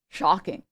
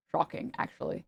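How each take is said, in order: First: Said in the usual way. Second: Whispered, sarcastic "Shocking"; voiceless, sarcastic "Shocking"; mock whisper. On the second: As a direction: breathe "Shocking" as a hushed aside.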